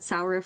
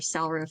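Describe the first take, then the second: First: The first vowel sounds like in 'Sauron'. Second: The first vowel sounds like in 'sand'. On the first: "like Sauron" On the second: "like Sand"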